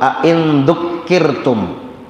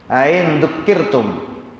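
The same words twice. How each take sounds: First: The second glottal stop is pronounced fully and clearly. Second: The second glottal stop is softened, not fully articulated. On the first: "Ain itu tahqiq namanya" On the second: "hamzah dari in syartiyahnya dibaca tashil. Bunyinya begini"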